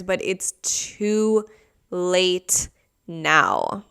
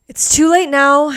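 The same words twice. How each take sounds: First: Said in the usual way. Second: Higher and louder, punching late; emphatic repeat. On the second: Real, not acted. Telling viewers the suitcase can't be returned, emphatic. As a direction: blurt it out as a final verdict.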